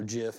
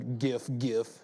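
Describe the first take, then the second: First: The word begins with a soft j sound. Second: The word begins with a hard g sound.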